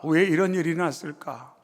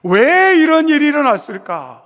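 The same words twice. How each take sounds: First: Quiet, falling, inward repetition; softer broken echo of the cry. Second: Higher and louder, crying out why; loud pained outcry on 왜; anguished cry. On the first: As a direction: let the question sink to a murmur. Same question echoed softly. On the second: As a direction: hurl the question upward in grief. Mary's anguished question, repeated. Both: Acted.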